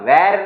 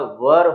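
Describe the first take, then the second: First: The vowel sounds like the one in 'air'. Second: The vowel sounds like the one in 'her'. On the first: The speaker calls it wrong. "इसका वेर नहीं होगा" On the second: The speaker calls it right. "वर होगा। Pronunciation ध्यान रखिए।"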